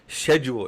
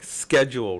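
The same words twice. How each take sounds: First: The word is said the British way. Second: The word is said the American way. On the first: "these British schedule" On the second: "Americans say uh like schedule"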